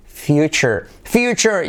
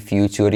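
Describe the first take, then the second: First: "future" as "FYOO-cher"; correct pronunciation. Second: "future" as Spanish "FYOO-toor"; wrong pronunciation. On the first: Shown as a demonstration. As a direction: soften the t of "future" to ch. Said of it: "empieza a decir". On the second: Retold or imitated. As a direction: mimic "future" with a hard t and full u. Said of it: "para de decir".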